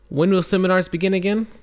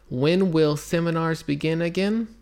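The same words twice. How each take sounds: First: It is read at a normal speed. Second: It is read slowly.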